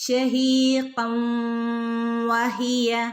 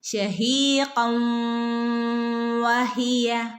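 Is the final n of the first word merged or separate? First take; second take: merged; merged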